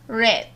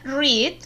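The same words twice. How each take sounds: First: It is pronounced as the past-tense form. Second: It is pronounced as the present-tense form. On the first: The reading happened in the past. "en pasado simple se escribe igual, pero se pronuncia read" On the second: The reading happens now or habitually. "en presente se lee read o se pronuncia read"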